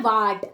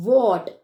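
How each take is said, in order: First: "वाट" with a long open aa vowel; wrong pronunciation. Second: "what" with a rounded aw vowel; correct pronunciation. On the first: Teacher showing children a common mistake, mispronounced. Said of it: "वाट गलत है". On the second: Teacher modelling the right word for children, correctly pronounced. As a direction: say "what" as "wot", firmly. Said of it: "सही pronunciation क्या है". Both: Shown as a demonstration.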